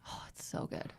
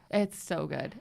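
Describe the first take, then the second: First: Breathless whisper of delight. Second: Said in the usual way. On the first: Real, not acted. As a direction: hush it like a guilty secret. Gushing about a TV show.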